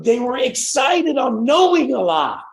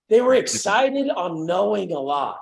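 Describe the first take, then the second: First: Slow, stretched, higher and louder on knowing; stressed repeat. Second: Slow repeat with weight on were; slower echo. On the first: Telling the group how excited the kids were, stretched and stressed. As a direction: lean hard on knowing, stretched out. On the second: Coach repeating his point to the call, slower and stressed. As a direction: say it again slower, leaning on were. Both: Real, not acted.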